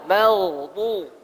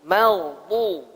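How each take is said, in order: Both takes have the same delivery.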